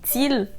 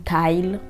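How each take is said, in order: First: The name is read with a French-style pronunciation. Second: The name is said with an English pronunciation. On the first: "Je sais pas comment vous le prononcez, mais c'est Teal" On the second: "si c'est comme ça que ça se dit en anglais"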